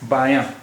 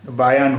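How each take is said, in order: First: The vowel is nasalized with no full n. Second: The word ends with a full n consonant. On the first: "ये अलिफ या और नून गुन्ना" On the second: "जब ये नून हो जाता तो इस शब्द का उच्चारण होता बायान"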